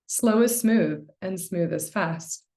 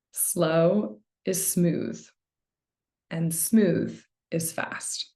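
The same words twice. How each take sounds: First: Said in the usual way. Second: Very slow, spaced-out adage; slow and deliberate. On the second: Shown as a demonstration. Meditation coach sharing a loved adage, slow and deliberate. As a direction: draw out each half, pausing between. Recites adage slowly to illustrate it.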